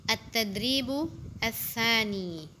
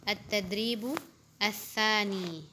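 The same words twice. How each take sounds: The two takes are said the same way.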